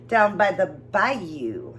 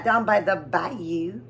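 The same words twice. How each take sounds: First: "down by the bayou" drawn out very slowly, each word stretched; slow drawn-out name. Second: "down by the bayou" stretched very slowly, rising at the end; slow drawn-out name. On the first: Reading the seasoning name aloud, drawn out slowly. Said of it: "Hope I said it right this time". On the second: Repeating the seasoning name for viewers, slowly. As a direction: linger on each word of "down by the bayou". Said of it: "Hopefully I said both those right". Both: Shown as a demonstration.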